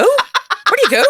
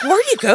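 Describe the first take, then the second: First: Even higher, louder, laughing; incredulous laughing. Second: High, loud disbelief; incredulous. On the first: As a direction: repeat it, cracking up in disbelief. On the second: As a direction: ask like you can't believe it. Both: Retold or imitated. Comedian reacting to absurd heckle.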